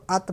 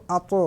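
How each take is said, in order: First: "ات" ending on a light t without bounce; light, unechoed "ات"; no echo. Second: "اتو" with a bouncing release after the t; full-mouthed "اتو" with an echo; echoing qalqalah. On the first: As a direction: say "ات" thin, the t simply released. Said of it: "اس کو ات پڑھیں گے". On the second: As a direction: let the final t of "اتو" rebound, heavy and full. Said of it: "آواز لوٹتی ہوئی نکلے گی". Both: Shown as a demonstration.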